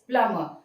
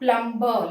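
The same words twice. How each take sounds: First: No B sound is heard after the M. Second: A B sound is heard after the M. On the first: The speaker calls it right. "The B over there is silent" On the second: The speaker calls it wrong. "not plumber, like what we usually hear"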